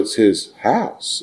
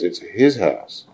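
First: The word house carries the stress. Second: The word his carries the stress. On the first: It is his household and family. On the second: It belongs to him and no one else.

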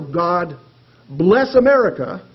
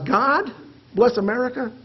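First: It is said in a demanding tone. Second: It is said in an incredulous tone. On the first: Blessings are owed and never enough. "those blessings through demanding eyes" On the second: Blessings are only random chance. "we can see them through incredulous eyes"

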